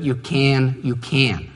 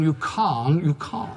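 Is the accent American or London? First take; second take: American; London. First: It is spoken in an American accent. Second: It is spoken in a London accent. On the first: "in an American accent" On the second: "Or if you come from London"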